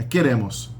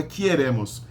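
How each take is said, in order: First: "queremos" with a plain e first, as ke-RE-mos; no i glide in "queremos", stress on RE; correct undiphthongized form. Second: "queremos" mispronounced with an extra i, as kie-RE-mos; wrong diphthongized form. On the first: Teacher giving learners the correction, "queremos" said cleanly as ke-RE-mos. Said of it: "a sílaba tônica é o hemos". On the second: Teacher showing learners the mistake, "queremos" wrongly said as kie-RE-mos. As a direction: put a false "ie" glide in the first syllable of "queremos". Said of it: "não pode virar quier". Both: Shown as a demonstration.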